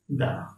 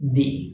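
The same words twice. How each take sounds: First: The vowel is a short, neutral 'uh' sound. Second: The vowel is a long 'ee' sound. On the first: A consonant sound follows the word. "If consonant sound is used after the, then you have to pronounce it the" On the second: A vowel sound follows the word. "If vowel sound is used after the, then you have to pronounce it the"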